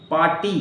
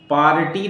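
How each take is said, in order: First: "पार्टी" with no R before the T; "पार्टी" said as "paa-tee"; silent R. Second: "पार्टी" with a strong R before the T; "पार्टी" said as "paa-r-tee"; wrong pronunciation, R sounded. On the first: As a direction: drop the R inside "पार्टी". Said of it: "आर नहीं बोलना है". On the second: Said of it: "पार्टी नहीं". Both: Shown as a demonstration.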